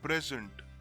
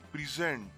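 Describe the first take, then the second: First: The stress is on the first syllable. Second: The stress is on the second syllable. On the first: The current period of time. "the current period of time" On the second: To show or exhibit. "to show or to exhibit"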